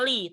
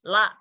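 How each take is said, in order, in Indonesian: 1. Huruf l diikuti vokal i. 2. Huruf l diikuti vokal a. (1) "dibacanya bukan li" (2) "tapi dibacanya fathah, la"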